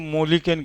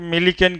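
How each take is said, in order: First: The first vowel sounds like 'o'. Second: The first vowel sounds like 'i'. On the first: The name is jokingly distorted. "नहीं तो हम तो मोलिकन कह देते हैं" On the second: The name is said respectfully. "हम लोग भाई साहब का इज्जत करके मिलिकन कहे"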